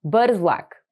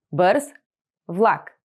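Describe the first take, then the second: First: Said in the usual way. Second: Two words with a pause between. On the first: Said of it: "whole phrase model". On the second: Shown as a demonstration. Teacher splitting the phrase for learners. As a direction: say each word on its own. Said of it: "split into words for repeating".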